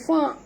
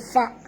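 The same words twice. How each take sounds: First: The syllable ends without a glottal stop. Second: The syllable ends with a glottal stop. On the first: The speaker calls it wrong. "jangan baca fa" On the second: The speaker calls it right. "ni hamzah yang mati"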